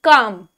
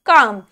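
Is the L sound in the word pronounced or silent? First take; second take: silent; silent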